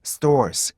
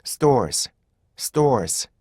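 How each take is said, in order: First: Wrong, drawn-out stores; droopy stores. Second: Stores in linked, compact beats; correct stores. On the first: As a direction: drag out stores as a single long sound. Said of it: "stores 쳐진 거고요". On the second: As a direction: say stores crisply without stretching it. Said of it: "이렇게 발음하셔야지". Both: Shown as a demonstration.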